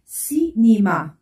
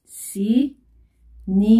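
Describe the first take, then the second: First: Said in the usual way. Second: "Cinéma" very slowly, split into ci, né, ma; syllable by syllable. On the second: Shown as a demonstration. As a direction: draw out "Cinéma" with gaps between syllables. Teacher breaks the example word up.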